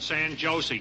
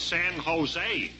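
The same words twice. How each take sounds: First: The J in Jose sounds like an English J. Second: The J in Jose sounds like an H. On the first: The speaker calls it wrong. "You don't pronounce it that way" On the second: The speaker calls it right. "It's San Jose, because J's are sounded like H's"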